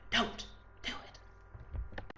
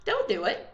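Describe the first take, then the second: First: Slow, drawn-out whispered warning; emphatic whisper. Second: Said in the usual way. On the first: Acted. Vlogger warning seat-kickers in the cinema, slow whisper.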